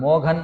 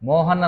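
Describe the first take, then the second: First: The middle consonant is a gh sound. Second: The middle consonant is a plain h. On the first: "మోఘన్ అని చదువుతారు" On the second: "మోహన్ అని ఉందనుకోండి"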